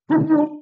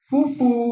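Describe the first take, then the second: First: The f sound is made with both lips. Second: The f sound uses upper teeth on lower lip. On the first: The speaker calls it right. "বাংলায় ফ হচ্ছে এরকম ফুফু" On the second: The speaker calls it wrong. "উপরের দাঁত নিচের ঠোঁট, এরকম হয়? এরকম হয় না"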